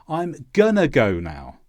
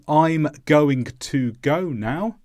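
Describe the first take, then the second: First: Sounds are squashed together and reduced. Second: Every sound in the phrase is clearly pronounced. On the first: Casual everyday speech. "these sounds are reduced" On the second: Careful textbook speech. "instead of"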